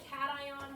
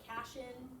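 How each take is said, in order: First: The word is said as three syllables, cat-eye-on. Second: The word is said as two syllables, cash-in. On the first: "it's kind of like cation" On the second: "where you like would read it as cash-in"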